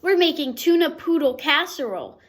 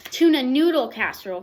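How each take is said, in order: First: Crooning. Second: Correcting. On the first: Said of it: "crooned his sister". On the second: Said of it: "corrected Mama". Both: A narrator's reading.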